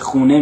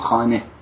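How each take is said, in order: First: The first vowel is an 'oo' sound. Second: The first vowel is an 'ah' sound. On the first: This is the colloquial Tehran form. "به جای خونه" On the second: This is the formal, bookish form used in Kermanshah. "میگیم خانه"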